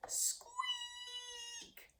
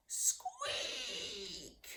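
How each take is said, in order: First: A tiny high squeak meant as a mighty roar; squeaky roar attempt. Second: A falling squeak that runs out of puff; squeaky roar attempt. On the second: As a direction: let the last squeak drop away. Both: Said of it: "Ernie roared the loudest".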